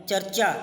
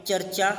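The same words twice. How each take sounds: The two takes are said the same way.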